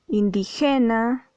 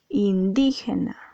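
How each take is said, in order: First: The stress falls on a syllable other than di. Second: The stress falls on the second syllable, di. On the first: The speaker calls it wrong. "tú no dices indígena o indígena" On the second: The speaker calls it right. "Aquí la sílaba di está acentuada. ... dices indígena"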